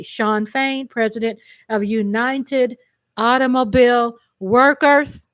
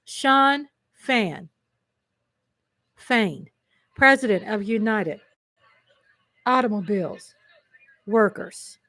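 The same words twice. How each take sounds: First: Said in the usual way. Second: Word by word with long pauses; deliberate repeat. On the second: Real, not acted. Host repeating a union leader's title for viewers, deliberate repeat. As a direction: savor each part of the name separately. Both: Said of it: "Can we say that again?".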